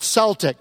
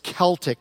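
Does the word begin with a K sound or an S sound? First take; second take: S sound; K sound. First: The word begins with a soft S sound. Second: The word begins with a hard K sound. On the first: The speaker calls it wrong. "not Celtic. But I never heard of the Boston Celtics" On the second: The speaker calls it right. "Tell Glenn it's Celtic"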